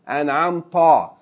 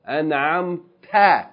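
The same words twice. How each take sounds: First: The t is a heavy, emphatic t sound. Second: The t is a plain, light t sound. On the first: The speaker calls it wrong. "not an'amta" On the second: The speaker calls it right. "An'amta, not an'amta"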